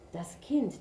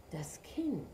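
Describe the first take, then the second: First: Said in the usual way. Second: Whispering Kind in shame; ashamed whisper. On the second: A narrator's reading. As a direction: breathe Kind ashamed, unvoiced. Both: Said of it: "senkte der Ochse beschämt den Kopf".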